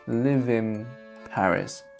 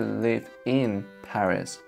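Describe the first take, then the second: First: The word 'in' ends with an m sound. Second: The word 'in' ends with an n sound. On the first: "in fluent speech, we tend to say" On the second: "Of course, you can say"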